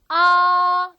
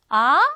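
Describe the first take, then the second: First: The pitch stays high and level, held long. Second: The pitch rises like a questioning reply. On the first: "일성은 ... 산처럼 아주 길게 소름으로 아 길게 나가면 되고요" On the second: "네? 이렇게 물어볼 때 네? 할 때처럼"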